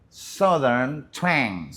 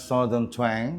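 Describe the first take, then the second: First: It is said with a drawling Southern American accent. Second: It is said in a plain, non-Southern accent. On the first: The speaker calls it right. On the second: The speaker calls it wrong.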